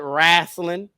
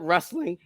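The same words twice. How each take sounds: First: It is said in a Southern accent. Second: It is said in a standard accent.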